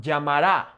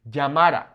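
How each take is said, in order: First: Llamará stressed on the last syllable, -RÁ; wrong final stress. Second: Llamara stressed on the middle syllable, -MA-; natural penultimate stress. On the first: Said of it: "the natural emphasis on a word". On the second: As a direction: hit the second-to-last vowel in llamara. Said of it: "falls on the second to". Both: Shown as a demonstration.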